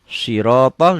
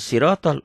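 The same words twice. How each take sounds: First: The first s is a heavy, emphatic sound. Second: The first s is a light, plain sound. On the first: It means the path. The speaker calls it right. "Sirotol dengan ini" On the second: It has a different meaning, not the path. The speaker calls it wrong. "bukan sirotol"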